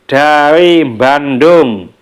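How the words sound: Bandung begins with a nasal m before the b. This is how a Javanese speaker says it. "kalau orang Jawa itu mengatakan ... padahal tulisannya tidak ada M-nya di awalnya"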